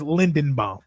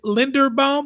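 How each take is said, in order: First: The middle syllable is said with an n sound. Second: The middle syllable is said with an r sound. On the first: It is how most people say it. "I swear everyone says Lindenbaum" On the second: It follows the spelling. "Because it's spelled Linderbaum. Is it Linderbaum?"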